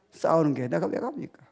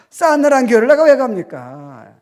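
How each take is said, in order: First: Said in the usual way. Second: Higher, louder rhetorical question with 왜 stressed. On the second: Shown as a demonstration. Pastor challenges the congregation, loud preaching. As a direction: punch 왜 and preach it. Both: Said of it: "repeated louder after laugh".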